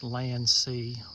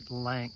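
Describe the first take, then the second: First: It is two syllables ending in an ee sound. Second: It is one syllable ending in a k sound. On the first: This is the accepted way to say it. The speaker calls it right. "I've always known it the proper way" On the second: Some other people say it this way. The speaker calls it wrong. "I have heard other people pronounce it Lank"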